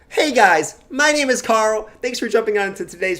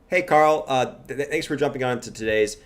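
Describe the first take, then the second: First: It is said with lots of enthusiasm. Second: It is said hesitantly with little enthusiasm.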